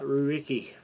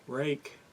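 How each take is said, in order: First: The name is spread over several separate syllables. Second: The name sounds like the single word rake. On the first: The speaker calls it wrong. "and not ruiki" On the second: The speaker calls it right. "It's pronounced rake"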